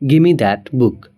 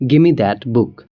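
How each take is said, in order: First: 'Give me' is reduced to 'gimme'. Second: The same.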